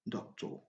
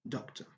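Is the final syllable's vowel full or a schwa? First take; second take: full; schwa. First: The final syllable has a full vowel. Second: The final syllable is reduced to a schwa. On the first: The speaker calls it wrong. "Never say professor, doctor" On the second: The speaker calls it right. "but professor, doctor, using sure"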